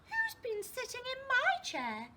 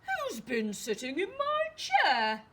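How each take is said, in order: First: It is said in a medium-sized voice. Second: It is said in a very loud voice. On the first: "she asked in a medium-sized voice" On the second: "he asked in a very loud voice"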